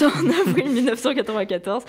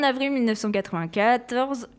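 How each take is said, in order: First: Restarts the date through a laugh, a bit faster; giggling through "avril mille neuf cent quatre-vingt-quatorze". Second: Said in the usual way. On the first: Shown as a demonstration. Presenter laughs at her own slip and restarts the date. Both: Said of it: "je recommence".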